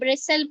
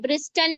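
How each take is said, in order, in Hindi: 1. t की आवाज़ silent रहती है। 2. t की आवाज़ बोली जाती है। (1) "पढ़ेंगे" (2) "नहीं"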